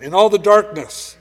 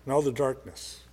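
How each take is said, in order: First: Higher and louder, ringing out; in all the darkness thrown out loud and high; loud proclamation. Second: Much softer, dropped low; in all the darkness echoed low and soft; hushed echo. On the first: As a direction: proclaim it to the back row. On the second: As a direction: let it sink into a near hush. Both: Shown as a demonstration. Repeated phrase, loud then hushed.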